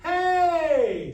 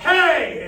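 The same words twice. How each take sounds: First: It is a full, ringing call. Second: It is a harsh, shouted yell.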